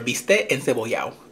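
Some consonants and vowels are dropped.

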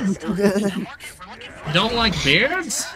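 It is said in a put-on character voice.

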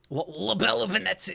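It is said in a put-on Italian accent.

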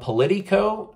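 It is said with a Spanish accent.

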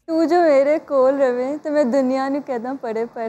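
It is said in a happy tone.

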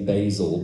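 The word is said the American way. "you are supposed to say Bazel because it's Californian"

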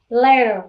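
The middle t sounds like a soft d. "tiếng Anh Mỹ ấy... nó sẽ đổi T thành D cho em. Cho nên cái từ này mình đọc là letter"

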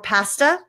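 It is said with a Canadian accent. "as the Canadians say"

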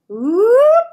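The pitch glides upward. "this is up"

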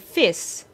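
The word ends with an s sound. "we would say fis"

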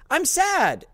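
The words are said in a bright, upbeat voice. The words' feeling is not reflected in the voice. The speaker calls it wrong. "it's not going to say it like I'm sad"

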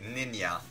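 The word is said with a Swedish pronunciation. "I say ninja ... Most Swedish people say that"

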